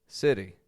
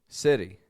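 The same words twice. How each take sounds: The two takes are said the same way.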